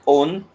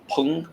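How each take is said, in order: First: The word starts with a vowel, no p sound. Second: The word starts with a clear p sound. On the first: "me, I pronounce it own" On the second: "some they they pronounce it as pung pung"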